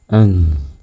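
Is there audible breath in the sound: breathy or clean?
breathy. Audible breath escapes with the syllable. The speaker calls it wrong. "Kalau sukun"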